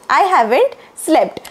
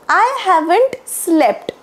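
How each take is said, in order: Both takes have the same delivery.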